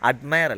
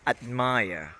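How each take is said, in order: First: The final vowel is short and clipped. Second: The final vowel is drawn out long. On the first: The speaker calls it wrong. "admire അല്ല" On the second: The speaker calls it right. "ഒന്ന് നീട്ടണം"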